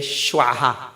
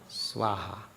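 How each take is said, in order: First: The word begins with an sh sound. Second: The word begins with an s sound. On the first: It is an insulting word. The speaker calls it wrong. "some people they say Shwaha" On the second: It is the proper offering word. The speaker calls it right. "Please say that thing correctly"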